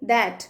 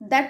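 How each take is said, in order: First: The vowel is the one in cat. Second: The vowel is not the one in cat. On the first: The speaker calls it right. "ఏమనాలి?" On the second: The speaker calls it wrong. "దట్ కాదు అనాల్సింది"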